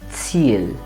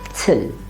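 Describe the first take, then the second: First: The vowel is held long. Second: The vowel is cut short. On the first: The speaker calls it right. "but Ziel" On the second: The speaker calls it wrong. "never Zill"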